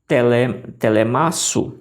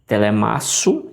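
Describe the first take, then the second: First: Slow syllable-by-syllable "telemasu"; reading by syllable. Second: "Telemasu" said slowly as one smooth word; "Telemasu" read whole, slowly; joined reading. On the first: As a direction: break it: "tele-", then "telemasu" slowly. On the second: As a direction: run the syllables of "Telemasu" together. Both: Shown as a demonstration. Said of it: "faça a leitura juntando essas aqui".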